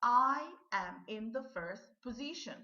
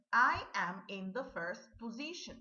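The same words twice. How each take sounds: First: Model sentence, repeated. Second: Model sentence. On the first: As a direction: clear and a little loud, stress on I. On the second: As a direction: read clearly and a little loud, stress on I. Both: Shown as a demonstration. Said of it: "listen and repeat these sentences".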